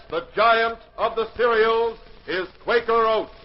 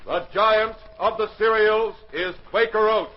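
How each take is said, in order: Both takes have the same delivery.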